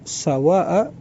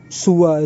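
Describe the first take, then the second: First: The first vowel is a. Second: The first vowel is u. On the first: "ada juga yang memfathahkannya" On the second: "ada di antara mereka yang mendomahkan sin"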